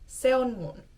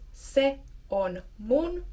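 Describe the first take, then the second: First: The words are said quickly and pushed together. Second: The words are said slowly and kept apart. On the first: "you can start trying to say it a bit faster. So more naturally" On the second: "you can first practice the pronunciation"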